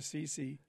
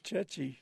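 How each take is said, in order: First: The word begins with an s sound. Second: The word begins with a ch sound. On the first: The speaker calls it wrong. "I always thought they were Sisi" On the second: The speaker calls it right. "It's chechi. You're right"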